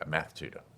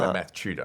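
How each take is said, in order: First: It is said in a non-Australian accent. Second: It is said in an Australian accent.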